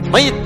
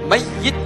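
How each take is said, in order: First: The y sound is short and single. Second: The y sound is held long and doubled. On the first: The person has already died. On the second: The person will die but is still alive.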